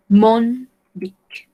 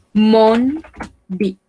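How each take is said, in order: First: Said in the usual way. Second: "mon", a pause, then "bic"; word by word. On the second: Shown as a demonstration. Teacher models French for learners, word by word.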